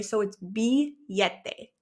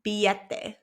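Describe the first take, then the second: First: Billete said slowly as bee-YEH-teh; double L as Y. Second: Billete repeated at normal speed, bee-YEH-teh; double L as Y. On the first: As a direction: billete with the LL as a Y sound. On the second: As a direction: billete again, LL as Y, quicker. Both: Shown as a demonstration. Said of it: "the double L in Spanish makes a Y sound".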